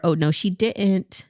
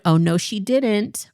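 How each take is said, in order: First: Second take. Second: Sassy first take. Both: Shown as a demonstration. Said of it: "say it the second way".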